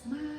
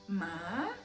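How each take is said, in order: First: The pitch stays level and flat. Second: The pitch rises upward. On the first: "The first is flat" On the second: "The second is rising"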